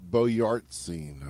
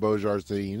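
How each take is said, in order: First: The middle sounds like 'yarts', ending in 'zine'. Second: The middle sounds like 'zhar', ending in 'din'. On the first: This is the name's real pronunciation. The speaker calls it right. "I believe" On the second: This is the familiar nickname form. The speaker calls it wrong. "as we like to call him"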